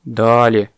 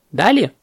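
First: Sad reply. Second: High questioning "Дали?"; brisk questioning. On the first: Baby elephant eyes shrunken bunch, sad. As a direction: answer glumly, at ordinary pitch. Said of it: "с грустью глядя на сильно похудевшую гроздь". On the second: Parrot checks on the bananas, questioning. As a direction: ask "Дали?" as a teacher checking, pitched up. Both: A narrator's reading.

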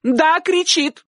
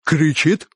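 First: Very high, slow emphatic cry; shouted confirmation. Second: "Кричит" asked with rising tune; questioning echo. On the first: Aunt confirming to uncle, shouting. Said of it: "крикнула тётушка". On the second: Uncle checking with aunt, asking "Кричит" back. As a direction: ask "Кричит" back at ordinary pitch. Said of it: "переспросил дядюшка". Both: A narrator's reading.

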